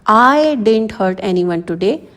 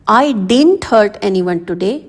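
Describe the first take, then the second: First: The stress falls on the word I. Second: The stress falls on the word didn't. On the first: If someone got hurt, it was not me. "इसमें आई पर stress देना है।" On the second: I may have done something wrong, but hurt no one. "अब इसमें आप didn't पर stress डाल रहे हो"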